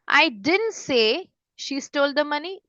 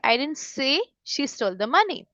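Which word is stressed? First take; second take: didn't; say. First: The stress falls on the word didn't. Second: The stress falls on the word say. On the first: The statement was never made at all. "फिर आता है didn't" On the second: It was implied, written or thought but not said directly. "मतलब मैंने directly नहीं बोला, या तो मैंने लिखा है या मैंने सोचा है"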